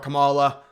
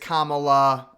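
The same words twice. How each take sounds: First: The name is said with an altered pronunciation. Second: The name is said with its standard pronunciation. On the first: The speaker no longer cares about being respectful. The speaker calls it wrong. "I don't care anymore. I'll just call her" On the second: The speaker is being respectful. The speaker calls it right. "I need to be more respectful"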